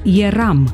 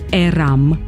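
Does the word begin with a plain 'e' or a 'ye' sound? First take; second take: ye; plain e. First: The word begins with a 'ye' sound. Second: The word begins with a plain 'e' sound. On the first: The speaker calls it right. "pronunțăm" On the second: The speaker calls it wrong.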